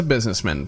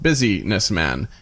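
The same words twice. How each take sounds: First: Said in the usual way. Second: "business man" split into two separate words, a bit slower. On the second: Shown as a demonstration. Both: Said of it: "pronounced business man".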